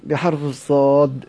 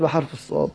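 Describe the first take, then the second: First: "بحرف الصاد" said slowly, stressing الصاد; slow emphasis. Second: Said in the usual way. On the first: Shown as a demonstration. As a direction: lean on "الصاد" as the answer. (ببطء مع التشديد على "الصاد") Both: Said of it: "كتبت بإيه؟".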